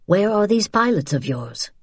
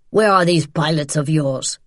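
First: Cooperative question. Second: Threatening man demanding an answer; menacing interrogation. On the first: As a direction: guide asking without menace. Man now agrees to help. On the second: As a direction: press her hard in an altered, forceful voice. Man interrogates pinned woman. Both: Acted.

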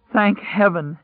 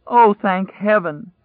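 First: High-pitched cry, choked with relief; choking with emotion. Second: Higher, louder, slow and choked with relief; crying out. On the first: Stranger cries out in relief at finding people, high and choked. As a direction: blurt it high, near tears with relief. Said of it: "high-pitched and choking with emotion". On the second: Stranger cries out again at finding survivors, slow high choked cry. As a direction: let the relief break out, drawn out and loud. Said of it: "it cried". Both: Acted.

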